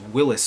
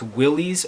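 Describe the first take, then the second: First: The name ends with an 'iss' sound. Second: The name ends with an 'eez' sound. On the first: The speaker calls it right. "in fact, Willie's Overland was Willis Overland" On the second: The speaker calls it wrong. "everybody says it wrong"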